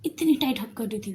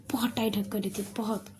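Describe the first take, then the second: First: Said in the usual way. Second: Soft whispered repeat; whispered aside to listeners. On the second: A narrator's reading. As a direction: lean in and whisper it. Repeats the hug line hushed.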